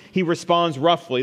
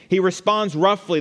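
First: Said in the usual way. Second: Roughly said louder and higher; stress on roughly. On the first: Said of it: "This is the second key thing". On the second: Shown as a demonstration. Preacher stresses roughly to his congregation. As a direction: lean hard on the word roughly. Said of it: "The word roughly is used".

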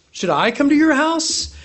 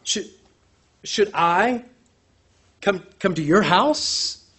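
First: Much higher pointed question on "your"; rising stressed question. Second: Said in the usual way. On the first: Shown as a demonstration. Preacher pressing the question to the centurion. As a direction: lift "your house" high in disbelief. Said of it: "this interpretation or translation". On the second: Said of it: "seen by the centurion's response".

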